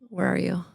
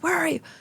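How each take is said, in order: First: It is said in a gentle, kind tone. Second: It is said in a stern, scolding tone. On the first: The asker is lovingly seeking the other out. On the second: The asker is angry and demanding an account.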